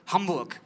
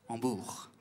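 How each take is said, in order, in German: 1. Die Betonung liegt auf der ersten Silbe. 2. Die Betonung liegt auf der zweiten Silbe. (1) "Im Deutschen ist es anders" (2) "Zweite Silbe wird betont"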